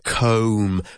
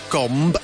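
First: The final B is silent. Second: The final B is pronounced. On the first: The speaker calls it right. "It's pronounced comb, with a long vowel sound" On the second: The speaker calls it wrong. "it might look like gomb, as in gombo, or gomba in Spanish, but it's not pronounced like that"

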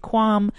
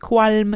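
First: The L sound is silent in the word. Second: The L sound is pronounced in the word. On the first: The speaker calls it right. "silent L, you say qualm" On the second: The speaker calls it wrong. "you don't say qualm"

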